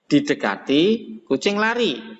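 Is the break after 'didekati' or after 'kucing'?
after didekati. There is a break after the first word. The cat is the one who runs. "itu artinya yang lari kucingnya"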